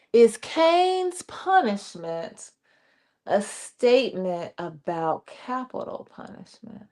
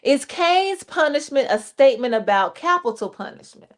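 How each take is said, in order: First: Much slower, letting each word land; slow, weighty reread. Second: Said in the usual way. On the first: Shown as a demonstration. Host rereads the listener's question slowly. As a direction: repeat it slowly so it sinks in. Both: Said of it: "y'all chime in on this for Vernon".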